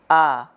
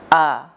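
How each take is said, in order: The two takes are said the same way.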